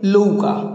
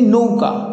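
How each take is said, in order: First: The word begins with an l sound. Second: The word begins with an n sound.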